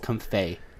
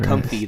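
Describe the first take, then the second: First: The name ends with a 'fay' sound. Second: The name ends with a 'fee' sound. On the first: The speaker calls it right. "lei rhymes with Fei" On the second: The speaker calls it wrong. "if you hear anybody pronouncing it comfy, they're wrong"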